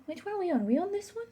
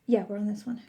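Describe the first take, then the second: First: Much higher, rising, unsure; high puzzled question. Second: Said in the usual way. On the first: Real, not acted. Checking which swatch.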